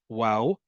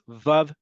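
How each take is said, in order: First: The word begins with a w sound. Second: The word begins with a v sound. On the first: "the way that at that time they did, it would sound like this" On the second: This is the standard modern pronunciation. "according to standardized Hebrew"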